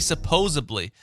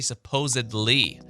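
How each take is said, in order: First: The word ends with an '-ably' sound. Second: The word ends with an '-edly' sound. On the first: The speaker calls it wrong. "it's when people say supposedly" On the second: The speaker calls it right. "you're supposed to say supposedly"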